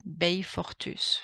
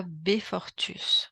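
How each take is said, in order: First: Slow alternative reading, "Bay" in "Bayfortus"; "Bayfortus" pronunciation. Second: Slow, careful "Befortus" with a plain "Be" opening; "Befortus" pronunciation. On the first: Interviewer unsure of the name, trying "Bayfortus" with a "Bay" glide. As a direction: say "Bayfortus" slowly, opening on a gliding "Bay". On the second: Interviewer showing how to read the name, careful pronunciation of "Befortus". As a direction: say "Befortus" slowly, first syllable a simple "Be". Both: Shown as a demonstration. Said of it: "je vais le prononcer comme ça".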